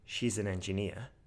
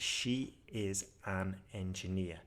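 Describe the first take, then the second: First: The words are pushed together and run on. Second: Each word and syllable is said separately. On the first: The speaker calls it right. "in a more natural way ... it's got pushed together" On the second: The speaker calls it wrong. "that's disconnected speech. Every sound, every syllable is disconnected"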